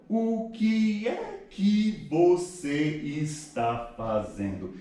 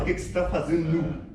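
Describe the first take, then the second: First: Very slow, every word of "O que é que você está fazendo" separate; over-pronounce each word, stretched out and pitched up; word-by-word careful enunciation. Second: "O que que você tá fazendo" run together as one word; casual connected speech. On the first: Teacher mocking unnatural Portuguese, slow word-by-word enunciation. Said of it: "Pronunciando bonitinho, pa-, é palavra por palavra".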